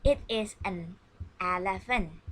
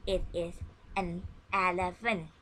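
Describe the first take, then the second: No difference in how they are said.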